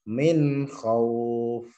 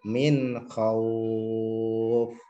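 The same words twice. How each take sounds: First: The vowel is held briefly, about two counts. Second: The vowel is held longest, about six counts. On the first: "Satu alif" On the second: "tiga alif ... enam harokat"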